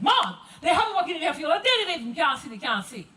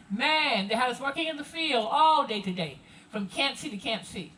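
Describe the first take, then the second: First: High, loud Gullah field-worker's talk; Gullah dialect. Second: Said in the usual way. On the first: Acted. Field worker complaining to Mom about the long day, Gullah dialect. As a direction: call out in thick Gullah, pitched up. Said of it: "you may have heard this conversation". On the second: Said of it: "may not have understood it".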